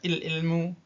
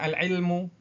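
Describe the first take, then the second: First: The article starts with a non-'a' vowel. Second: The article starts with an 'a' vowel. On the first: The speaker calls it wrong. "Tidak dibaca il-ilmu" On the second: The speaker calls it right. "itu dibaca fathah"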